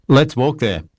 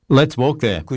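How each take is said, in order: The two takes are said the same way.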